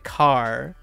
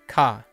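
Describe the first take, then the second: First: It is said with an r sound. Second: It is said without an r sound. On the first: "if you talk to an American. You would get car" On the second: "in British English, if you just tell them this this kana is this word, then you get ka"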